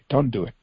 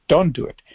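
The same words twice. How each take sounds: First: Said in the usual way. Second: Pleading cry. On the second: Acted. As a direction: beg them harder, voice rising. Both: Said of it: "God is pleading with them".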